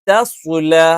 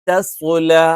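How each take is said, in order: First: A light first consonant, then a heavy second. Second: A light first consonant, then a heavy second.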